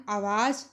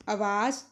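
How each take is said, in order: First: आवाज़ with long opening aa; double long vowel. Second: आवाज़ said as avaaj, short start; Punjabi short vowel. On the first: Teacher showing the incorrect form, long-vowelled आवाज़. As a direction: hold both vowels of आवाज़. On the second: Teacher showing the corrected form, आवाज़ with short start. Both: Shown as a demonstration. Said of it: "आ दी मात्रा दो बार प्रयोग नहीं".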